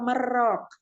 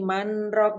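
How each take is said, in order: First: The n merges completely into the r. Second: The n is pronounced before the r. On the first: The speaker calls it wrong. "kata lain yang satu kata tulisannya itu merok, maknanya lain" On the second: The speaker calls it right. "harus manrok"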